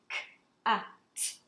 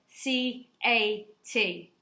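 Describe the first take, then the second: First: Each letter is said as its sound. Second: Each letter is said by its name. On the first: The word is being sounded out. "when I'm sounding it out in my words, I'll say k, a, t, the sounds" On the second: The word is being spelled. "I would spell it C A T, so that they're understanding that is the letter names"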